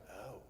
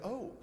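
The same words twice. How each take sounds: First: Soft, low "oh" of disdain; mock posh British aristocrat, quietly disgusted. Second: A quick surprised "oh"; mock surprise. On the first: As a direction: lower and much softer, aristocratically appalled. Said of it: "a posh British aristocrat's disgust". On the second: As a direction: demonstrate a startled little "oh". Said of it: "the O of someone who's surprised". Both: Shown as a demonstration.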